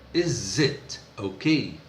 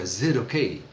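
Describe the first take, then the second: First: The first word is said in full. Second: The first vowel is dropped, leaving a z sound.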